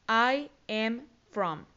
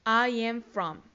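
First: Very slow, each word separated; slow model phrase. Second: Said in the usual way. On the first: Shown as a demonstration. Teacher models phrase slowly. (frase modelo muy lenta, palabra por palabra)

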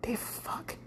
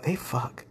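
First: Whispered "They fuck." with no voice; sneaky realization, whispered. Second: Softly voiced, half to yourself; hushed aside. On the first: Retold or imitated. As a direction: breathe "They fuck." as a shocked secret. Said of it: "and you're like". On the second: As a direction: drop it to a private hush. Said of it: "you're like".

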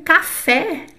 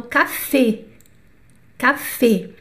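First: "café" with open final é, ca-FEH; Portuguese open café. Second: "café" with closed final ê, ca-fê; French closed E. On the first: Teacher says the Portuguese word for comparison, open E. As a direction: open up the last vowel of "café". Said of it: "é igualzinho". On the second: Teacher models French café, closed E. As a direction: keep the end of "café" tight and closed. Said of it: "então, é fechado". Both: Shown as a demonstration.

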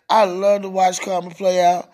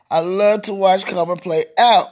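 First: Said in the usual way. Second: "out" punched at the end; stress on OUT. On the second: Real, not acted. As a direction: land hard on "out" with a rise. Line repeated with new emphasis.

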